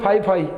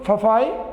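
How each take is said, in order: First: Both syllables are said with a long 'ai' vowel. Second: The first syllable has a short 'a' vowel. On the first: The speaker calls it wrong. "कोई बोले फाई फाई ना" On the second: The speaker calls it right. "फफाई होता है ये"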